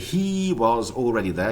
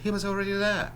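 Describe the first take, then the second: First: The word he has a full long vowel. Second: The word he has a short reduced vowel. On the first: The speaker calls it wrong. "So would you say" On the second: The speaker calls it right. "short e"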